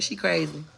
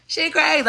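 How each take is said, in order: First: Said in the usual way. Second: High mocking sing-song; mock hater voice. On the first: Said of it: "somebody commented that". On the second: Mocking what haters say, in a high sneer. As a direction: mimic the haters, pitched up high. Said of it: "they wanna be like".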